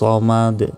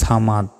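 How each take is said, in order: First: The first s sound is heavy and deep. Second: The first s sound is light and thin. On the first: The speaker calls it right. "এখানে রয়েছে সদ" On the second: The speaker calls it wrong. "আমরা অনেকে বলি যে আল্লাহুস সামাদ"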